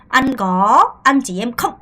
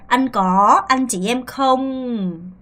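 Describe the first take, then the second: First: The final word is short and clipped. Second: The final word is drawn out and lengthened. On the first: The speaker calls it wrong. "하지 말고요" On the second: The speaker calls it right. "끌죠"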